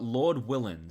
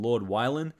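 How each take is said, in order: First: The second word has a short 'i' vowel. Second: The second word has a long 'eye' vowel. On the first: The speaker calls it right. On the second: The speaker calls it wrong.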